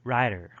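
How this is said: The middle T is a quick tap.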